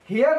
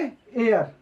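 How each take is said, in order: First: The word begins with an h sound. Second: The word begins without an h sound. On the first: The speaker calls it wrong. "हियर नहीं पढ़ेंगे" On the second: The speaker calls it right. "इसको क्या पढ़ेंगे एयर"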